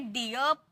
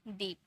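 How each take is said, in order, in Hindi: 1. यह स्वर 'ee' से 'uh' की ओर खिसकता है। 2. यह स्वर एकल लंबी 'ee' ध्वनि है। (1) "इसे डियप नहीं बोलेंगे" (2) "जैसे डीप"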